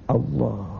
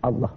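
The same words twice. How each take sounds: First: It is said softly and calmly, from within. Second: It is said mechanically, from the mouth only.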